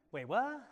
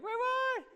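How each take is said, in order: First: Imitating a puzzled child, slightly higher, rising; a small baffled double take; mildly confused. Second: Very high, louder mock-baffled squeal; hammed-up double take of a bewildered child; exaggerated confusion. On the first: Teacher imitates confused pupil hearing the twist, mildly puzzled. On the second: Teacher teases confused pupil by imitating her, exaggerated bafflement. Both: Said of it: "Sammy's confused right now".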